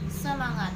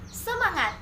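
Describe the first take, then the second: First: It is said with flat, lifeless intonation. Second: It is said with lively, energetic intonation.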